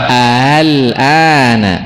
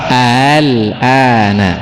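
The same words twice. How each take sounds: No difference in how they are said.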